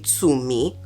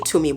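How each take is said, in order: First: The name is said in its careful native form. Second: The name is said in a casual everyday way. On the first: This is the name's true original pronunciation. The speaker calls it right. "it's actually supposed to be Tumi" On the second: This is how the name is usually said day to day. The speaker calls it wrong. "So I say Tumi"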